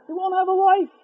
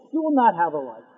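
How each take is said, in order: First: Much higher on "life", pressed hard; emphatic warning. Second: Said in the usual way. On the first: Shown as a demonstration. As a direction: drive the warning home.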